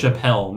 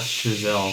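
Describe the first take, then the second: First: The middle consonant is a p sound. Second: The middle consonant is a z sound. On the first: The speaker calls it wrong. "she said his name like Chappelle" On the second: The speaker calls it right. "not Chazelle"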